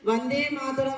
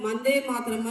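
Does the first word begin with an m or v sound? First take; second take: v sound; m sound. First: The first word begins with a v sound. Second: The first word begins with an m sound. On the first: The speaker calls it right. "వందే మాతరం అని చెప్పి పాడుతున్నాం" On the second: The speaker calls it wrong. "చాలా మంది పిల్లలు మందే మాతరం అని పాడుతున్నారు"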